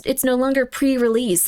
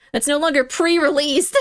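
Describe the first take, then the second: First: Said in the usual way. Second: Mildly indignant, insistent exclamation. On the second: Real, not acted. Streamer protesting a sealed pre-release kit, indignant. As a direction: insist on it in mock outrage.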